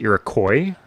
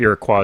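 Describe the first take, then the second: First: It uses the pronunciation heard in upstate New York. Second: It uses the pronunciation more common in Canada. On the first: "some people, including Iroquois people in upstate New York, will say Iroquois" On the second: "I believe Iroquois is much more common, definitely in Canada"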